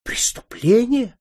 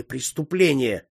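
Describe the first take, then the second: First: Much higher, louder, drawn-out shriek; shocked cry. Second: Said in the usual way. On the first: A narrator's reading. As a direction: countess shrieking the word back at her son in disbelief. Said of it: "крикнула графиня". (потрясённый протяжный крик гораздо выше и громче)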